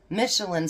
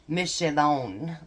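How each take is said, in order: First: It is pronounced the English way. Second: It is pronounced the French way.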